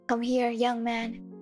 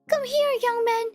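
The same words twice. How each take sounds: First: It is read in a plain, normal voice. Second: It is read in a put-on character voice. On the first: The speaker calls it right. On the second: The speaker calls it wrong.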